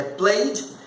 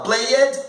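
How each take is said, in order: First: "played" as one syllable, playd; correct ED ending. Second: "play it" said play-ed, two syllables; Brazilian learner's error. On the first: Shown as a demonstration. Teacher correcting the learners' version, one syllable. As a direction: end "played" straight on d. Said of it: "é played". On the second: Retold or imitated. Teacher mimicking most Brazilian learners, play-ed. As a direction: add a false vowel in "play it". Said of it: "O brasileiro fala".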